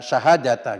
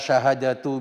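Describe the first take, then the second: First: The word ends in an a vowel. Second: The word ends in a u vowel. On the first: It is the object of an implied verb. "dibaca syahadata berarti mengira-ngirakan fiil dan fa'ilnya" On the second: It is the subject or predicate of its own clause. "syahadatu dibaca tu, dibaca dhamma"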